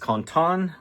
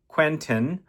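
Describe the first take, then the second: First: The name is said with a French pronunciation. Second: The name is said with an American English pronunciation. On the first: "in French" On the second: "in uh, English, American English"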